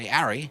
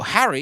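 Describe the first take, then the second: First: The name starts without any H sound. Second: The name starts with an audible H sound. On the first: The speaker calls it wrong. "you don't say Harry. Wouldn't that be awful?" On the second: The speaker calls it right. "when you say, you know, Harry"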